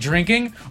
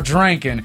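First: The word ends with an 'ing' sound. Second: The word ends with an 'ang' sound. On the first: "the word ing" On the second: "the word ang"

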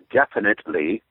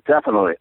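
First: Every syllable is exaggerated and overly crisp. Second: Several sounds are dropped from the word. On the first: "Overpronounce it" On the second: "you don't pronounce half the letters"

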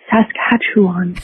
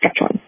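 First: The word is said with every syllable precise. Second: The word is slurred into about two syllables. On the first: This is how outsiders said it. "which is very precise and adorable" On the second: This is how local people say it. "kind of slurs it into two-ish syllables"

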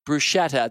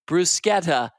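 First: It is said the common American way. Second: It is said the Italian way. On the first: The speaker calls it wrong. "as many will say in the U.S" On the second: The speaker calls it right. "That's how the Italians pronounce it"

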